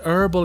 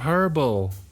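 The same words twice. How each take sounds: First: It is said the American way, silent h. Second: It is said the non-American way, sounded h.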